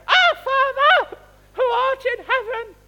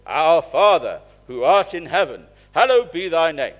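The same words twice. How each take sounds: First: Much higher and louder, slow; a small boy bellowing the prayer as loud as he can; little boy shouting. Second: Booming, much louder than speech; full-volume prayer. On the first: Little boy joining in beside his dad in church, high and loud. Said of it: "a little voice going". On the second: Dad leading the church service, praying the Lord's Prayer booming loud. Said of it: "it would be at full volume". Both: Retold or imitated.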